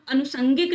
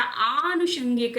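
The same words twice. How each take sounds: First: अनुसंगिक said "anu-sangik"; short a and plain s in अनुसंगिक; "sa" in the middle of अनुसंगिक; wrong form. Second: आनुषंगिक said "aanu-shangik"; long opening aa and sh in आनुषंगिक; correct form. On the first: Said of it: "अनुसंगिक नहीं होता". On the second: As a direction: stretch the first vowel of आनुषंगिक. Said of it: "ऐसे लिखते हैं". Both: Shown as a demonstration.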